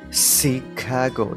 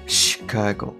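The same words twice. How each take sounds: First: The word begins with a plain s sound. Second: The word begins with an sh sound. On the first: The speaker calls it wrong. "ではなくて" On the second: The speaker calls it right. "死のまま発音されるもの"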